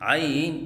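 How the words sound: The voice wavers up and down through the word. The speaker calls it wrong. "लहराव के साथ पढ़ना"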